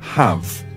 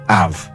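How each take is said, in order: First: The word begins with an h sound. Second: The word begins without an h sound.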